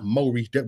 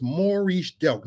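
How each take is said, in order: First: "Maurice Delk" with first syllable like "mo"; mispronounced name. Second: "Maurice Delk" with first syllable like "more"; correct name pronunciation. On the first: Preacher showing the wrong name, "Maurice Delk" said MO-reese. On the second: Preacher giving his government name, "Maurice Delk" said MOR-eese. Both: Shown as a demonstration. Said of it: "not Maurice Delk".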